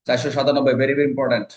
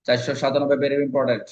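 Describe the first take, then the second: No difference in how they are said.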